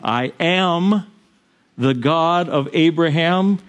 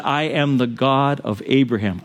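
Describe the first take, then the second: First: "I am the God of Abraham" said slowly, weight on "Abraham"; slow, solemn emphasis. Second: Said in the usual way. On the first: Shown as a demonstration. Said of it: "He said, 'I am the God of Abraham.'".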